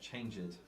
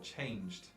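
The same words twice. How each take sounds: First: The ending is said as an added extra syllable. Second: The ending is a plain final sound, no extra syllable. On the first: The speaker calls it wrong. "and not changed" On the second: The speaker calls it right. "or changed"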